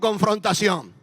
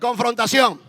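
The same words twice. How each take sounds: First: It is said at a normal volume. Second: It is said loudly.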